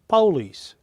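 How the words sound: It is said with a southern US pronunciation.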